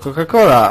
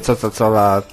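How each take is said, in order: First: The word is pronounced with Polish sounds. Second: The word is pronounced with English sounds. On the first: The speaker calls it right. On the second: The speaker calls it wrong. "nie mówię"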